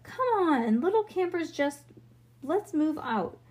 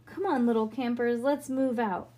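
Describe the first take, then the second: First: Rally the little ones to march; rallying call. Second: Said in the usual way. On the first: A narrator's reading. Bean standing to lead campers, rallying call.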